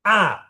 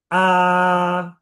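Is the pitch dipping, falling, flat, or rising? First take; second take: falling; flat. First: The pitch falls sharply from high. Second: The pitch stays level and high. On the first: "Nada empat, turun" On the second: "Nada satu, A, A, A, datar aja"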